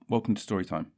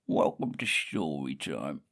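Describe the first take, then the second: First: It is said in the speaker's ordinary voice. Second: It is said in a put-on character voice. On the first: "Why don't I just do it in my normal voice?" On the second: "I quite like that voice"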